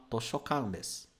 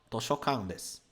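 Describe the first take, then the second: No difference in how they are said.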